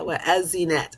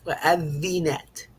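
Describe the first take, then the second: First: The middle consonant is a buzzing z sound. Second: The middle consonant is a soft th sound. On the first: The speaker calls it wrong. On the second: The speaker calls it right.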